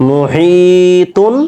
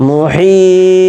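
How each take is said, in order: First: "মুহিতুন" with ee held one count, higher, flowing into "তুন"; slow recited "মুহিতুন" without a stop; joined reading. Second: "মুহিত" with the ee held very long, high and level, then echoed t; slow chanted "মুহিত", ending in a released t; long stretched vowel. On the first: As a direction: stretch "হি" moderately in "মুহিতুন" and carry on to the ending. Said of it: "হি এখানে এক আলিফ টান দিব". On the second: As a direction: stretch "হি" three counts and stop on a bouncing "ত" in "মুহিত". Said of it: "এখানে তিন আলিফ পরিমাণ টান দিব". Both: Shown as a demonstration.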